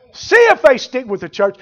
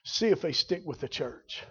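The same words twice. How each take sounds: First: Repeated louder and higher. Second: Much softer, dropped low; quiet. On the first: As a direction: throw it out to the congregation. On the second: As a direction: say it almost under the breath before repeating. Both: Acted. Repeats line quiet then loud.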